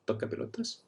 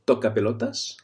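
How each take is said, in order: First: "toca pelotas" whispered without voice. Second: Said in the usual way. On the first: Shown as a demonstration. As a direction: breathe "toca pelotas" as a secret. Repeats insult for learners.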